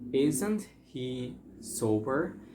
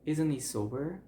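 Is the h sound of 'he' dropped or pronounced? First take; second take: pronounced; dropped. First: The h in 'he' is clearly pronounced. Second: The h drops and 'isn't' links into 'he'.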